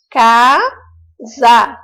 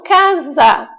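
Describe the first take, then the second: First: "casa" in two separate, drawn-out syllables. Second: Said in the usual way. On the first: Shown as a demonstration. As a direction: sound out "casa", pausing between the syllables. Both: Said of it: "colocar cada sílaba em um quadrinho".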